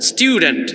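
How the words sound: It is said in a British English accent. The speaker calls it right. "তাদের উচ্চারণ অনেক সুন্দর"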